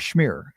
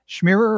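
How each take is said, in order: First: The name is said as one short syllable. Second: The name has an extra syllable at the end. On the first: The speaker calls it right. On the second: The speaker calls it wrong.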